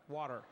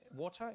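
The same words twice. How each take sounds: First: It is said in an American accent. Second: It is said in a non-American accent. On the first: "In American, you say water, right?" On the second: "I call that water. Yes, water"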